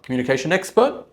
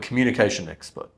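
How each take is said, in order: First: The pitch rises at the end like a question. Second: The pitch falls at the end like a statement. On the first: The speaker sounds uncertain. The speaker calls it wrong. "Not communication expert" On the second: The speaker sounds certain and final. The speaker calls it right. "And that's final"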